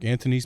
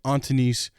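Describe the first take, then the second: First: The first vowel sounds like the 'a' in ant. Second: The first vowel sounds like 'ah' in father. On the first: "it was Ant, like A N T" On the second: "if there wasn't a pronunciation guide, I would have said like"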